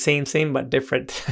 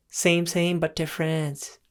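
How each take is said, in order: First: Lightly attempted Thai accent; a half-hearted go at a Thai accent; weak imitation of a Thai accent; bad Thai accent. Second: Higher-pitched mock Thai accent; playful Thai accent impression, pitched up. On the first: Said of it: "That was a bad, uh, Thailand, Thai accent". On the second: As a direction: redo it as a fuller, high-voiced Thai accent. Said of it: "That was much better".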